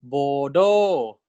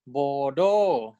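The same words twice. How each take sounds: First: "bodo" with a rising tone on "do"; teacher modelling "bodo"; modelled word. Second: Said in the usual way. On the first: Shown as a demonstration. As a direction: lift the last syllable of "bodo". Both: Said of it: "So this is".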